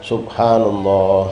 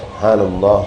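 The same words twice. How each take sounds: First: It is drawn out slowly. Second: It is said at normal speed.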